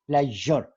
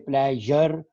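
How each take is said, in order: First: The middle consonant is a soft 'zh' sound. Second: The middle consonant is replaced by another sound. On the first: The speaker calls it right. "the sound of ja, ja, which is in pleasure" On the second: The speaker calls it wrong. "many Punjabis, they will say pleasure"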